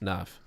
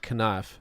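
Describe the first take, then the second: First: The word begins with no K sound. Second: The word begins with a sounded K. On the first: This is the easier way it is said now. "Naf without a K" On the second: This is how it used to be said long ago. "the K was not silent"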